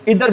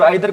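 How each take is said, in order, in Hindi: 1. पहला स्वर 'ee' जैसा बोला जाता है। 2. पहला स्वर 'eye' जैसा बोला जाता है। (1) "इधर भी बोल सकते हैं" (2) "आइदर को क्या बोल सकते हैं?"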